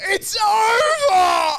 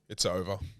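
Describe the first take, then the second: First: It is said in a triumphant, excited tone. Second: It is said in a flat, neutral tone.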